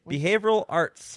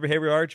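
First: The phrase is said slowly and carefully. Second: The phrase is said quickly and run together. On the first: "even when you said it slowly" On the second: "I say that wrong again"

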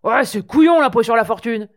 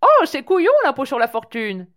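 First: It is said in a coarse, working-class bar voice. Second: It is said in a posh, courteous voice.

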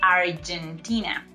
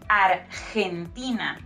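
First: The G sounds like an English J. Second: The G sounds like a breathy H. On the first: The speaker calls it wrong. "not Argentina" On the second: The speaker calls it right. "So we say Argentina"

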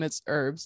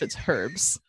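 First: It is said in an American accent. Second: It is said in a British accent. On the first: "If you're American" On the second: "and if you're British"

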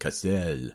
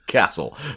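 First: The name is said with a French accent. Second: The name is said with a Northern English accent. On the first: "with more of a French accent" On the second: "I'm just going with a Northern accent"

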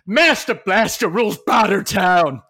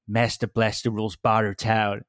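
First: It is said louder, shouted. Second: It is said at normal, quieter volume.

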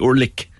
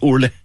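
First: The word ends in a harsh throaty consonant. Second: The word ends in a soft breathy sound. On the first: This is the southern regional form. "in Cork it might be Orlick" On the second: This is the northern regional form. "they take off the CH at the end and they put on a TH"

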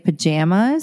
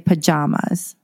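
First: The stressed vowel matches the vowel in bananas. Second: The stressed vowel differs from the vowel in bananas. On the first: This is the pronunciation that makes the title rhyme. "I don't say pajamas" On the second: This is the speaker's own accent, so the title does not rhyme. "I say pajamas"

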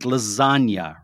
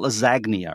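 First: The g is not sounded; it has a y sound. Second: The g is sounded as a hard g. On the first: The speaker calls it right. "It has a y sound, like lasagna" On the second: The speaker calls it wrong. "It's not lasagna"

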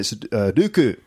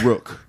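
First: The name starts with R and has two syllables. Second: The name starts with an R sound, one syllable. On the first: This is how it is said in Japan. "And in Japan" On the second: This is how some English-school students said it. "Also I've been called Rook"

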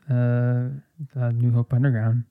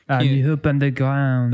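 First: It is said with a plain English accent. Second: It is said with a French accent. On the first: "There's no you don't French" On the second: "Even say New Hope Underground with a French accent"

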